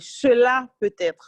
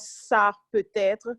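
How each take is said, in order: First: The first word is the full two-syllable form. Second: The first word is the short one-syllable form. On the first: The speaker calls it right. "ce serait plus élégant de prononcer le mot complètement" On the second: The speaker calls it wrong. "nous avons tendance à dire tout le temps ça peut-être"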